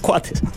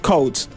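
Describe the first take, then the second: First: The name begins with a 'kwa' sound. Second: The name begins with a plain 'ko' sound. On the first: This is the familiar local way of saying it. "yo voy a decir Cuates" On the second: This is how the family says the name. "la pronunciación correcta es Coates"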